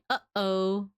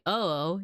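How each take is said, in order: First: A glottal catch separates the two syllables. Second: The syllables run together without a throat catch. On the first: The speaker calls it right. "you say uh oh" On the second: The speaker calls it wrong. "you don't say oh oh"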